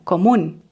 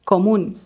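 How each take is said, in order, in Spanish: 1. Las palabras se unen en una sola unidad. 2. Las palabras se unen en una sola unidad.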